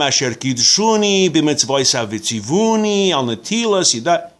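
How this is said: It is said in Galician Hasidic pronunciation.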